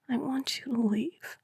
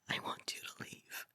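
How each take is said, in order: First: It is said in a wondering, questioning tone. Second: It is whispered softly.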